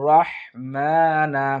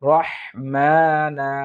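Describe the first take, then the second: The two takes are said the same way.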